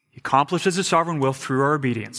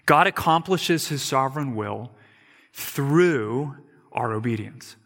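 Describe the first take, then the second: First: Fast, easy repeat of the point; quick restatement. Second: Through our obedience drawn out slowly; slow, deliberate statement. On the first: Preacher quickly repeating the point for the congregation. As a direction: rattle it off fast as a recap. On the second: Preacher stating the first point, slow and deliberate. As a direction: spell the point out slowly, word by word. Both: Shown as a demonstration. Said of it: "here's what we need to know".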